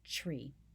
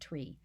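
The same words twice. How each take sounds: First: The word begins with a ch sound. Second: The word begins with a plain t sound. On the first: "that first sound is really the C H sound" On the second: "I normally say"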